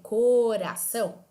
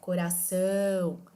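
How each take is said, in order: First: The first syllable is drawn out and stressed. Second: The last syllable is drawn out and stressed. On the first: The speaker calls it wrong. "Vai ficar um pouco estranho" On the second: The speaker calls it right. "eu consigo manter a pronúncia da palavra mesmo arrastando a letra A"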